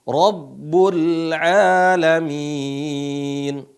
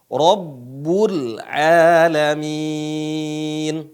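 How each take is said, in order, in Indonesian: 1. Bunyi r-nya berat dan tebal. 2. Bunyi r-nya berat dan tebal.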